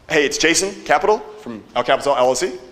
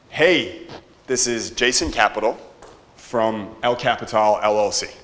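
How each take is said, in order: First: It ends rising, like a question. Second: It ends falling, like a statement.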